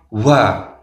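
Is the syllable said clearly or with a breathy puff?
breathy. The syllable is said with a puff of breath. The speaker calls it wrong. "bukan wa. Tidak boleh dengan hembusan angin"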